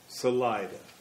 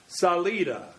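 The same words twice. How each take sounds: First: The name is pronounced the English way. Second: The name is pronounced the Spanish way. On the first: The speaker calls it wrong. "it's been locally mispronounced as Salida" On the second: The speaker calls it right. "we will say the word is pronounced Salida"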